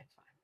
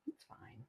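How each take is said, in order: First: Said in the usual way. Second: Much softer, whispered to herself; calm yourself in a whisper; whispered reassurance. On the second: Shown as a demonstration. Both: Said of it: "repeats reassurance".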